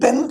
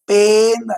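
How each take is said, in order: First: The vowel is short. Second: The vowel is long. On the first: The speaker calls it wrong. "ఇది పెన్ కాదు actual గా" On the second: The speaker calls it right. "దీన్ని మనం ఎలా పలకాలి అంటే పేన్ అని పలకాలి"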